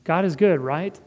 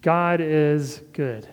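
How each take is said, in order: First: God is good, then right? rising as an unsure question. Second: God is good, said slowly with a falling close; firm statement. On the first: Pastor voicing a grieving father's unsure, rising question. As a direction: ask it, half doubting, ending on a rise. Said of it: "We might be saying it as a question". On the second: Pastor voicing a grieving father's slow, firm affirmation. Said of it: "We keep saying it". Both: Shown as a demonstration.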